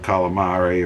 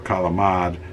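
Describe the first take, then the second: First: It is said with a general American pronunciation. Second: It is said with an Italian American pronunciation.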